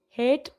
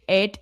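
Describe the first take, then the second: First: The word starts with a clear H sound. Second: The H is dropped, in an Italian accent.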